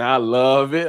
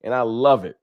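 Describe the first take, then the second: First: Slow, drawn-out rapper ad-lib. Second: Said in the usual way. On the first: Shown as a demonstration. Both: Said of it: "in my [name] voice".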